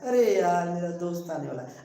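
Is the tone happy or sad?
sad. It is said sadly and glumly.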